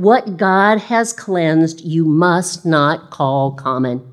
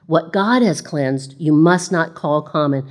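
First: Very slow, weighty divine words; slow solemn pronouncement. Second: Said in the usual way. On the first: Acted. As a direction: lay each word down slowly. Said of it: "the voice spoke to him again". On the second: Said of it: "This was done three times".

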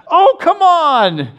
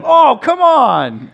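First: Put-on much higher, slow, drawn-out little boy's protest; eight-year-old Jack copying dad's complaint; imitating his young son. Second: Slow, drawn-out protest, higher and louder; dad complaining at a penalty on the TV; fed-up fan.

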